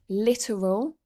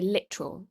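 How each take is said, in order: First: The word is said carefully with every syllable. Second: The word is said quickly with syllables reduced.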